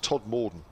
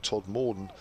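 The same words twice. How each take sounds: First: The second part of the name is said quickly. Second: The second part of the name is drawn out. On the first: The speaker calls it right. "with the second part said a lot quicker in these parts" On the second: The speaker calls it wrong. "the southern pronunciation of Todd Morden"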